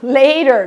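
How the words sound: It has an American accent with an R sound.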